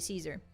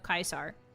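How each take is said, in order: First: The name begins with a soft 's' sound. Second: The name begins with a hard 'k' sound. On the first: This is how most people commonly say it. "most people just say Caesar" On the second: This is the classical Latin pronunciation. "the correct pronunciation of Kaiser, Latin wise"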